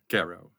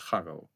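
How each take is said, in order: First: The name is said in an anglicized way. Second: The name is said in its original way. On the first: It is an easier version for English speakers. "So in English, you have Gary, so you can make it Garrow" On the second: It is the official form of the name. "officially, it's Garo"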